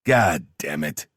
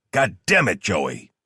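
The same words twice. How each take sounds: First: Slow, drawn-out curse; weary, slowed swearing after a rant; spent cursing. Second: Furious cursing that falls away at the end; exasperated outburst. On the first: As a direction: curse with the steam burned out. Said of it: "having burned out the steam he was letting off". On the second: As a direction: lose your temper down the phone. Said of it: "while Delaney lost his shit". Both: A narrator's reading.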